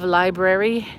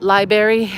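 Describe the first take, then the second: First: It is said in a standard accent. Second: It is said in a Baltimore accent. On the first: "instead of" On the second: "Some people in Baltimore say"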